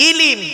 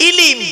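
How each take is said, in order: Both takes have the same delivery.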